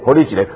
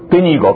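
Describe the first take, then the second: First: It is spoken in Taiwanese Hokkien. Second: It is spoken in a Sichuan dialect. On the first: "听不懂台语是吧？" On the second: "要不要讲四川话？"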